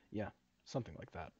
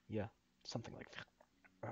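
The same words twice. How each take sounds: First: Said in the usual way. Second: Botched character line as the voice cuts out; real vocal slip, barely voiced; voice giving out. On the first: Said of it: "Uh, sorry, my voice screwed up". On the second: Real, not acted. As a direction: voice fails into an unvoiced croak. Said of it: "my voice screwed up".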